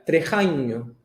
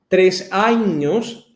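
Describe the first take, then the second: First: The s is swallowed and linked to años. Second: The s in tres is clearly pronounced.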